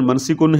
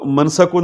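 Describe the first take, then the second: First: The second syllable has the vowel i. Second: The second syllable has the vowel a. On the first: This is the form actually used. The speaker calls it right. "लेकिन मनसिकुन है" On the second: This is the form the verb pattern predicts. The speaker calls it wrong. "मनसकुन आना चाहिए"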